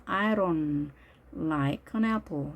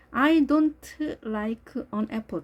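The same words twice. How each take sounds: First: "I don't" with the D softened to an R, "I ron". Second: "I don't like an apple" word by word, hard D and T; slow, fully released T in "don't" and K in "like"; every sound pronounced. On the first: Teacher modelling weakened D, "don't" said as "ron". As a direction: slowly say "I ron like an apple". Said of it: "약화 현상이 일어나서 R 발음이 됩니다". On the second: Teacher showing needless full reading, "don't" with clear D and T. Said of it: "다 읽어줄 필요 없습니다". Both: Shown as a demonstration.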